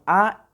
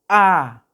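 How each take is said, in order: First: The vowel sound is short and plain. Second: The vowel sound is held longer. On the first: "Las simples es únicamente como las que conocemos" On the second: "la A prolongada sería A. Se prolonga un poquito más"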